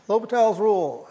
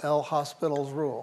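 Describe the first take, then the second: First: The name is said without the hospital sound. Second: The name sounds like the English word hospital. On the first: The speaker calls it right. "OK, it's L'Hopital" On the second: The speaker calls it wrong. "that famous rule that we all mispronounce when we see it written"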